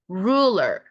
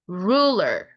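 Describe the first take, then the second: Both takes have the same delivery.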